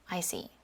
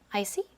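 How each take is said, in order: First: The pitch falls at the end. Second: The pitch rises at the end. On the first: "the falling intonation" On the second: "rising intonation"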